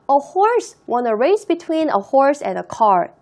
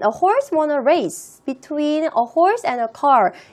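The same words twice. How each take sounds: First: 'Race' runs into 'between' with no break. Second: There is a break between 'race' and 'between'. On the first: 'Between' clearly describes the race. The speaker calls it right. "a race라는 단어와 between이라는 단어 사이에 포즈를 두지 않고 연결해서 읽었어요" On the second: It is unclear what 'between' describes. The speaker calls it wrong. "between이 어디에 붙는 between인지 제가 굉장히 불명확하게 읽었죠"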